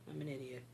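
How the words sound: It is said in a relaxed, calm way.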